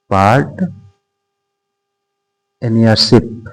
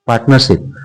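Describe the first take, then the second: First: "part", long pause, then "नरशिप"; halting piece-by-piece dictation, softly ended; broken-up dictation. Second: Said in the usual way. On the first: Shown as a demonstration. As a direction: split the word after "part", as if writing it. Teacher spells out topic slowly.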